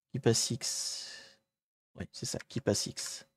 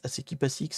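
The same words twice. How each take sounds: First: Whispered to himself, softer; quiet whispered repeat. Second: Said in the usual way. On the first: Real, not acted. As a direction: murmur the tool name under your breath. Repeats tool name to himself.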